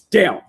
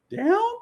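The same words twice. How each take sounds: First: It is said as a firm command. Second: It is said as a rising question.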